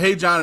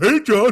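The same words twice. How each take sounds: First: It is said in his normal voice. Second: It is said in a Barney-like voice.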